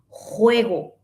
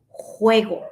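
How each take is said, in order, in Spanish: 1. La j es un sonido áspero, como raspado. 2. La j es un sonido áspero, como raspado.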